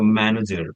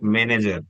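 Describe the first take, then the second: First: The stress is on the first syllable. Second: The stress is on a later syllable. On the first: The speaker calls it right. "So over the may, I'm giving more stress, like a manager" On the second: The speaker calls it wrong. "not manager"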